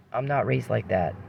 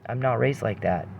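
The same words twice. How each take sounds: The two takes are said the same way.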